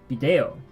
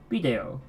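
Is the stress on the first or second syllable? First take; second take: second; first. First: The stress is on the second syllable. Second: The stress is on the first syllable. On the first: "or the E" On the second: "with the stress on the I"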